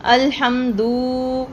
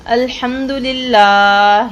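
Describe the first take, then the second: First: الحمدو slowly with the و stretched long; wrong lengthened vowel. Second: الحمدللہ recited slowly, short pesh on the dal; correct recitation. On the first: Teacher shows students the lengthened و mistake. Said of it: "واو مدہ کی طرح تھوڑا سا لمبا کر دیا". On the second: Teacher recites الحمدللہ the right way for students. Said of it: "جگہ پہ آپ نے". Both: Shown as a demonstration.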